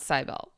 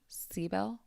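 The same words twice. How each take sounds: First: The name is said without a clear E sound. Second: The name is said with a clear E sound. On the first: The speaker calls it wrong. "not Cybele" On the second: The speaker calls it right. "with a more of an E sound"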